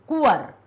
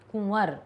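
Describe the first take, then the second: First: कुंवर with a plain, un-nasal कु and full व; without chandrabindu. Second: कुंवर with a nasal कुँ, softly; with chandrabindu. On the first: Teacher to class, showing the un-nasal कुंवर. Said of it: "यदि चंद्र बिंदु नहीं होती तो क्या उच्चारण होता". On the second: Teacher to class, showing the nasal कुंवर. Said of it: "का पर चंद्र बिंदु है तो कुंवर". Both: Shown as a demonstration.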